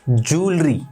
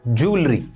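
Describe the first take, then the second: The two takes are said the same way.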